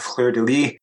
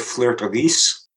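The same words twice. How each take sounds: First: The final s of lis is silent. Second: The final s of lis is pronounced. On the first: It sounds like flower of the bed, meaning a prostitute. The speaker calls it wrong. "fleur-de-lis is a flower of the bed" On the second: It names the lily flower symbol. The speaker calls it right. "you should say fleur-de-lis, because the word is pronounced lis"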